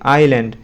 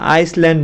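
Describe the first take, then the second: First: No s sound is pronounced in the middle. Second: An s sound is pronounced in the middle. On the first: The speaker calls it right. "এখানে এস উচ্চারণ হবে না।" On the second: The speaker calls it wrong. "আবার তোমরা আইসল্যান্ড বললো না"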